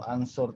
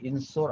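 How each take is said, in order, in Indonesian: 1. Kata ini diawali dengan vokal a. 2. Kata ini diawali dengan vokal i. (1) "atau ansur" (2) "bukan insur"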